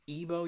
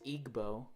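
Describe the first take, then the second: First: The g is not pronounced as a separate sound. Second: The g is pronounced as a separate sound. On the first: The speaker calls it right. "you don't actually pronounce the G" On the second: The speaker calls it wrong. "everyone thinks it's Igbo"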